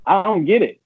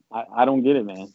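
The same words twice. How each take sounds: First: Much higher, louder cry of defeat; exasperated outburst. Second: Said in the usual way. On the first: Retold or imitated. Player complaining to the game, high and exasperated. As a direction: throw up your hands at the game.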